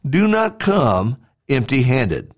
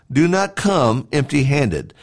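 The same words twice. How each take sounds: The two takes are said the same way.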